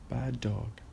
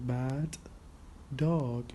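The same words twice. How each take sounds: First: The two D sounds merge into one. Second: Both D sounds are pronounced separately. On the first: "we drop one of the, the D's" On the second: "instead of saying bad dog"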